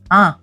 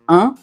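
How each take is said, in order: First: The vowel sounds pinched, with no air through the nose. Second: The vowel resonates normally through the nose.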